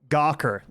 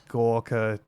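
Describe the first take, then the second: First: The name is said in an American accent. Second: The name is said in a non-American accent. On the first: "Gawker is how Americans say it" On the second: "we say it like that"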